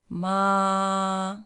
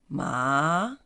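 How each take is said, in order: First: The pitch stays high and level. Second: The pitch rises from middle to high. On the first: "high flat" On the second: "is going up"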